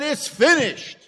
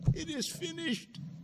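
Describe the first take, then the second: First: The phrase is said loudly and forcefully. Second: The phrase is said quietly and weakly. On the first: The speaker is triumphant and joyful. The speaker calls it right. "he said it with a loud voice" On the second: The speaker is exhausted and defeated. The speaker calls it wrong. "he didn't say"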